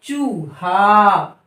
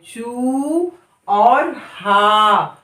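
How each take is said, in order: First: चूहा joined but slow; slow blended word. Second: चू held long, then हा; slow syllable split. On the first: Teacher blending the syllables into चूहा. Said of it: "हम क्या पढ़ेंगे". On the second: Teacher sounding out चूहा slowly. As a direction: stretch चू before हा. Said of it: "तो चा को हम क्या पढ़ेंगे". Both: Shown as a demonstration.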